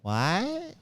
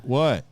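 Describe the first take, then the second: First: High rising, drawn-out question; baffled cashier. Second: Loud, short falling question; curt coworker. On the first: Cashier faced with a stranger's fish, baffled high question. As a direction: imitate a baffled clerk, pitch sliding way up. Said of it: "The woman goes". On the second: Aaron walking over to the cashier, curt loud question. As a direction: imitate a summoned coworker's blunt response. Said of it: "he's like". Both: Retold or imitated.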